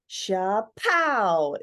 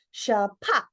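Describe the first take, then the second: First: "Sha-pow" said with an open, ringing "pow"; a first try at the sound, with a lingering end; sound effect "Sha-pow". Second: "sha-pa" with the last "pa" cut off sharp; clipped "sha-pa". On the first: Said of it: "sha-pa would be more accurate". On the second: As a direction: stop the sound dead on the final "pa". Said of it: "needs to cut off and be sharp at the end". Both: Shown as a demonstration.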